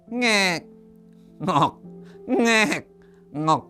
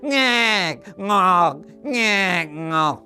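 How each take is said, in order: First: It is said fairly softly. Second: It is said more loudly.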